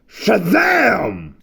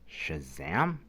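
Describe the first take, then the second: First: The word is shouted loudly and proudly. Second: The word is said quietly, not shouted.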